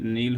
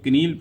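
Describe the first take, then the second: First: The word starts with an n sound. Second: The word starts with a k sound. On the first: The speaker calls it right. "के जो है ये silent है" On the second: The speaker calls it wrong. "अगर आप किसी के सामने इसको कनील पढ़ दिए तो आपका ख़त्म मामला हो गया"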